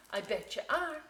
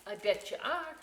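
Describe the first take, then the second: No difference in how they are said.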